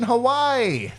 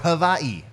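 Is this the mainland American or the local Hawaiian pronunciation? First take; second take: mainland American; local Hawaiian. First: It uses the usual mainland American pronunciation. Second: It uses the local Hawaiian-style pronunciation. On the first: The speaker calls it wrong. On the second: The speaker calls it right.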